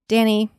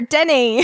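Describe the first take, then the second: First: It is said in the speaker's normal accent. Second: It is said in a put-on Australian accent.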